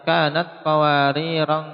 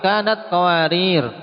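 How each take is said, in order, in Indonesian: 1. Kata terakhir diakhiri dengan bunyi -an tambahan. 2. Kata terakhir diakhiri tanpa bunyi -an. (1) "dibaca pada qiraah Nafi' ... ditanwin" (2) "Tidak perlu alif ya kawan"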